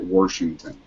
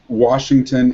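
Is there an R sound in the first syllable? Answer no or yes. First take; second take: yes; no. First: It is said with an added R sound. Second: It is said without an R sound. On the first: The speaker calls it wrong. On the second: The speaker calls it right.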